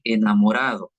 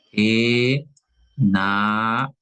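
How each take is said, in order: First: Said in the usual way. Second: Slowly stretched. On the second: Shown as a demonstration. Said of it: "en el caso de enamorado".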